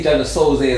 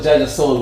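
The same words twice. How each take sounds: First: Soulze said as soul-zay; two syllables in "Soulze", ending like say; nickname Soulze pronunciation. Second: Souls as a single syllable; "Souls" like the plural of soul; no "ay" after "Souls"; original Souls pronunciation. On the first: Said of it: "I used to say Jaja Soulze as well". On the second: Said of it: "you know it was Jaja Souls". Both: Shown as a demonstration.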